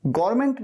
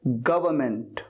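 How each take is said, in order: First: "गवर्नमेंट" squeezed into gor-ment; mispronounced government. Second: "गवर्नमेंट" as guh-vuh-ment, low; correct government. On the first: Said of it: "गवर्नमेंट नहीं". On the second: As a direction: say "गवर्नमेंट" in three syllables. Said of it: "क्या कहना है?". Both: Shown as a demonstration.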